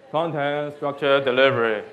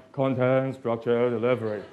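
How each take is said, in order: First: Serious. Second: Hypnotic chant. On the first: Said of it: "do it, uh, serious". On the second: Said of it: "Try to hypnotize". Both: Shown as a demonstration.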